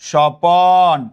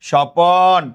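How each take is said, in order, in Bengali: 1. 'প' ও 'ন'-এর মাঝে একটি স্বরধ্বনি বসানো হয়। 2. 'প' ও 'ন'-এর মাঝে একটি স্বরধ্বনি বসানো হয়।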